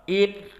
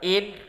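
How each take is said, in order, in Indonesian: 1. n berdengung lewat hidung yang terbuka. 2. n terputus saat hidung dijepit. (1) "Coba in" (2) "kita tutup hidung kita, in, tidak ada"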